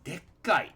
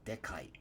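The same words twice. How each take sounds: First: It is said in an altered, emphatic form. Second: It is said in its plain standard form. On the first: The speaker stresses that the thing is really huge. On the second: The thing is large.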